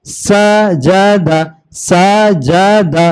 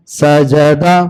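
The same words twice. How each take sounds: First: Slow drawn-out demo. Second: Said in the usual way. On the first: Shown as a demonstration. Teacher drawing out the word slowly for a child learning to read. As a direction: stretch each syllable slowly for the pupil. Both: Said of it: "ऐसे ही चलेंगे आप".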